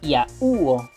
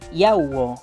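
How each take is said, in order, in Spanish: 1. El acento cae en la vocal U. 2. El acento cae en la vocal A. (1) "si coloco la tilde en una de las vocales cerradas, por ejemplo la U, sonaría de esta forma" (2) "la pongo en la A, en una vocal abierta? Sonaría de esta forma"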